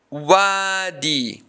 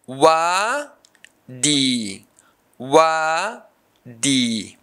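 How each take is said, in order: First: Said in the usual way. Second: "wadi" as long wa, pause, long di; syllable by syllable. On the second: Shown as a demonstration. Teacher showing a long-vowel word's syllables, syllable by syllable. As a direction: stretch and separate both halves of "wadi". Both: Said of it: "This word has two syllables".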